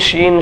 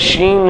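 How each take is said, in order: First: The word begins with an sh sound. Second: The word begins with an sh sound.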